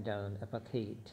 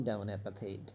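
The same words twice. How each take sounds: The two takes are said the same way.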